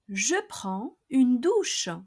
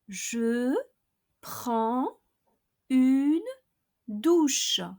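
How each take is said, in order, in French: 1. La phrase est prononcée à vitesse normale. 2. La phrase est prononcée lentement. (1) "then at normal speed" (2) "I'll pronounce each expression slowly, first twice"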